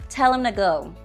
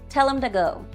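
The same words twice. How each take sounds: Both takes have the same delivery.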